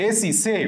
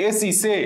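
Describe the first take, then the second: Both takes have the same delivery.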